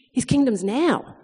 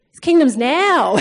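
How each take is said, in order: First: Said in the usual way. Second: Louder, slow, breaking into a laugh; emphatic repeat. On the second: Retold or imitated. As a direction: hammer it home, half laughing.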